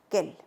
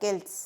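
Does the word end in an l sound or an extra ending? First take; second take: l sound; extra ending. First: The word ends plainly in an l sound. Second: The word ends with an extra sounded ending. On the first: The speaker calls it right. "no, quel" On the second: The speaker calls it wrong. "no digo quelles o quels"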